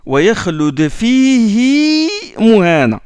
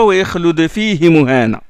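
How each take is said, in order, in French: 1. La voyelle après le ha est allongée. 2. La voyelle après le ha reste courte. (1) "Mais là, il le prolonge" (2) "Et non pas"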